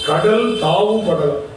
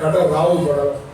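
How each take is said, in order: First: The words are split apart and said separately. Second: The words are merged into one joined form.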